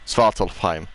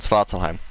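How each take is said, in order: First: The name is said with an f sound. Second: The name is said without an f sound. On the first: The speaker calls it right. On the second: The speaker calls it wrong. "I keep saying Svartalheim"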